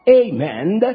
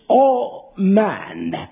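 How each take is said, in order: First: The word starts with an 'ay' sound. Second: The word starts with an open 'ah' sound. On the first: The speaker calls it wrong. "It is not amen, because that is the name of a Greek god" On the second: The speaker calls it right. "It is spoken like this. Listen, it is all man"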